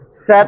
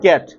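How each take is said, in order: First: The word begins with an s sound. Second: The word begins with a k sound. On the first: The speaker calls it wrong. "Sat or cat?" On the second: The speaker calls it right. "We pronounce this as cat"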